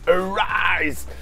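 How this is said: The r is pronounced as an English r. "pour les Américains"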